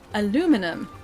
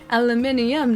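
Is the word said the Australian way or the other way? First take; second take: other; Australian. First: It is said the non-Australian way. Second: It is said the Australian way. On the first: "not al aluminum" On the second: "I say aluminium. That's because I'm Australian"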